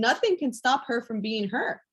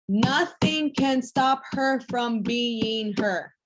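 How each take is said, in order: First: Said in the usual way. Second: "Nothing can stop her from being her" drawn out word by word; slow emphatic repeat. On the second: Real, not acted. Coach telling girls "Nothing can stop her from being her", slow and emphatic.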